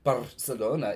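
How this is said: It is said with a Latin American accent.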